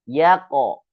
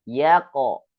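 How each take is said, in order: No difference in how they are said.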